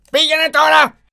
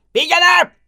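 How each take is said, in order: First: Πήγαινε τώρα shouted high and loud, τώρα stressed; roaring command. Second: Πήγαινε! roared much higher and louder; roaring command. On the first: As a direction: bellow Πήγαινε τώρα like a monster. Beast sends merchant away. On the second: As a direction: bellow Πήγαινε! like a monster. Beast dismisses merchant. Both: Acted.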